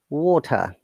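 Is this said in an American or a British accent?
British. British accent, with a crisp T and no R. "British English"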